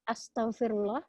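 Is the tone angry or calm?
calm. It is said in a calm, gentle tone. A sincere plea for forgiveness. The speaker calls it right. "bisa jadi hanya sekedar bilang maaf, astagfirullah, itu baik kan"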